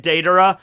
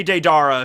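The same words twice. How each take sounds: First: Deidara said DAY-duh-ruh; Deidara with DAY up front; correct pronunciation. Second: Deidara said day-DAR-uh; Deidara with a stressed "dar"; flubbed pronunciation. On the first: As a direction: carefully stress the first syllable of Deidara, DAY-duh-ruh. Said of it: "I will try to say it". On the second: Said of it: "I'm gonna say Deidara". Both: Shown as a demonstration.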